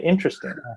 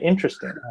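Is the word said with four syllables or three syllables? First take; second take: three syllables; three syllables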